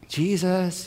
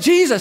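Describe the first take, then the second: First: It is said softly and gently. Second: It is said loudly, as a yell.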